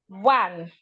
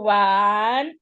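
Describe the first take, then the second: First: The word is said short, without dragging. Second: The word is stretched out and dragged. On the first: The speaker calls it right. "try not to stress or should I say drag them" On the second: The speaker calls it wrong. "children will go one, two. We want to try not to do that"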